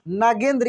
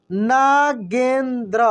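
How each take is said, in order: First: Said in the usual way. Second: Nagendra stretched slowly, syllables apart; slow syllable reading. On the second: Shown as a demonstration. (Nagendra को धीरे-धीरे बोलो)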